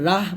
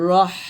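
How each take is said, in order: First: The final h is plain, without a hiss. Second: The final h is a thin hiss of air. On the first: The speaker calls it wrong. "এখানে রাহ বলবেন না" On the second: The speaker calls it right. "এরকম বাতাস বের করবেন, চিকন বাতাস"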